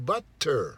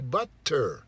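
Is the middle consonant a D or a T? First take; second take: T; T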